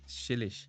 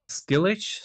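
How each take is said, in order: First: The name begins with an sh sound. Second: The name begins with an sk sound.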